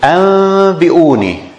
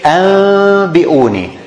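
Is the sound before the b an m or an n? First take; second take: m; m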